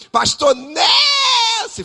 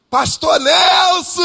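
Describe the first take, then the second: First: Very high, slow shout with a cry in it; louder crying shout. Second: High shouted call across the room; loud call. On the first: Makeup artist insisting over the room, crying out very high. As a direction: yell his name even harder, stretched. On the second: Makeup artist calling the pastor across the salon, shouting slowly. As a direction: call out his name loudly and stretched. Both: Retold or imitated. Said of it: "Falando alto".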